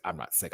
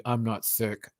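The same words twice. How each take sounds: First: Mock mumble. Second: Said in the usual way. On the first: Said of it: "He was like". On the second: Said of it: "The guy gonna tell me".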